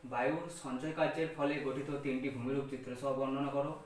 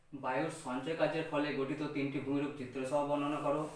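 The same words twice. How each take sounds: No difference in how they are said.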